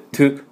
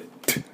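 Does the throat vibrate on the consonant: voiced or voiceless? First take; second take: voiced; voiceless. First: The t sound is voiced, with throat vibration. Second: The t sound is voiceless, with no vibration. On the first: The speaker calls it wrong. "喉が振動して、" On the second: The speaker calls it right. "喉は全く振動しません。"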